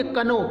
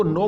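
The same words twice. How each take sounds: First: "कनो" with the K sounded; wrong reading. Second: "नो" starting straight on n; correct reading. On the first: Teacher showing students the wrong "कनो", K pronounced. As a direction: say know as "कनो", ka before the n. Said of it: "कनो नहीं पढ़ेंगे". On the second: Teacher correcting students, "नो" with silent K. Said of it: "इसको नो पढ़ेंगे". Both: Shown as a demonstration.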